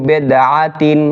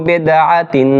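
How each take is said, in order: No difference in how they are said.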